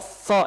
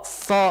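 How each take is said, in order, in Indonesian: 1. Desisnya tertahan oleh ujung lidah yang ditekan. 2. Desisnya tertahan oleh ujung lidah yang ditekan.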